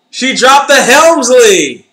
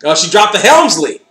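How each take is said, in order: First: Higher, louder, slow emphatic repeat; louder slower "She dropped the Helmsley" with a rise in pitch; excited loud repeat. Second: Said in the usual way. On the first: Real, not acted. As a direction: stretch it out, thrilled. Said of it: "repeat louder, slower". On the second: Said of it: "repeats with emphasis".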